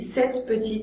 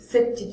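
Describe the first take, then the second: First: The e in petite is pronounced. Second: The e in petite is dropped. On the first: The speaker calls it right. "je dis cette petite" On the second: The speaker calls it wrong. "c'est trop difficile"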